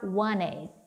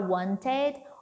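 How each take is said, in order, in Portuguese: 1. O som do T no meio é omitido. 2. O som do T no meio é pronunciado.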